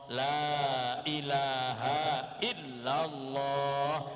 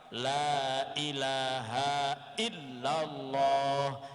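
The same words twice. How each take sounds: First: Every sound is clear, with long vowels. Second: The same.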